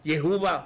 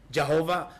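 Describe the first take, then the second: First: The name is said the Javanese way. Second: The name is said the Batak way. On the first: "Logatnya saja dalam bahasa Jawa" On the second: "Logatnya saja dalam bahasa Batak"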